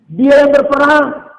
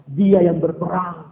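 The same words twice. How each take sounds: First: Loud, high, slow declaration; emphatic proclamation. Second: Said in the usual way. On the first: Real, not acted. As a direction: proclaim it forcefully, drawing it out. Repeated emphatically for the congregation. (seruan lantang, tinggi dan lambat)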